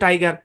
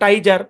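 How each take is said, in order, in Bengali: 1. মাঝের ব্যঞ্জনটি একটি শক্ত g ধ্বনি। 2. মাঝের ব্যঞ্জনটি একটি নরম j ধ্বনি। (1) "হচ্ছে টাইগার" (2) "এটা হওয়ার কথা ছিল টাইজার"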